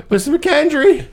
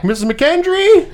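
First: High call broken by a laugh; a mock shout, half laughing; laughing yell. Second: High, loud call across the woods; a kid's shout, pitched up high; yelling a name. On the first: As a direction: call her again, cracking up. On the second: Retold or imitated. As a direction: call out to her from up the tree. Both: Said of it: "Henry yells back".

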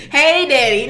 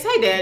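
First: "Hey, Daddy" with a hint of an accent, a bit louder; lightly imitating friend's accented "Hey, Daddy"; mock accented "Hey, Daddy". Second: Said in the usual way. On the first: Teasing friend, copying her accented way of calling dad. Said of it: "you had the whole accent on". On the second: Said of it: "No, it's, it's".

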